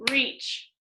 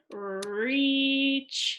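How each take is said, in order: First: "reach" said short, as one beat; single syllable. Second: "reach" as one long, slow stretched syllable; long and drawn out. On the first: Teacher showing it has one syllable, "reach" said short. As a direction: say "reach" once, briefly, without stretching it. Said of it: "listen to this". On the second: Teacher reading a syllable word to pupils, "reach" drawn out long. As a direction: hold the vowel of "reach" a long time. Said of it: "Even though that's kinda long". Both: Shown as a demonstration.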